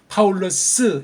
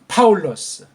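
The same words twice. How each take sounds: First: A strong vowel is added after the final s. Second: Only a faint vowel follows the final s. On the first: The speaker calls it wrong. "강한 으자를 넣으면 틀린 발음이고" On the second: The speaker calls it right. "그냥 살짝"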